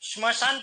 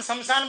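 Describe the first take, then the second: First: The word begins with a 'shm' cluster. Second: The word begins with 'sham' plus a vowel. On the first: This is the form as written. The speaker calls it right. "मैंने श्मशान पढ़ा है" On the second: This is the simplified spoken form. The speaker calls it wrong. "हम शमशान बोल रहे हैं"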